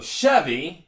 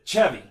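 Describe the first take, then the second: First: It is said with the usual English sound. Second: It is said with a Mexican-accented opening sound. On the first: "they pronounce so Chevy in English" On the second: "but they pronounce it Chevy"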